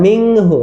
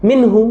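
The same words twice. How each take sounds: First: মিংহু said with a nasal ng, the wrong way; wrong ng ending. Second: মিনহু with a clean, distinct n before the h; clear n. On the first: Teacher showing parents the wrong reading, মিংহু with ng. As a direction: say মিংহু with ng before the h. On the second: Teacher giving children the right reading, মিনহু with clear n. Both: Shown as a demonstration. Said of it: "মিনহু বলা যাবে না".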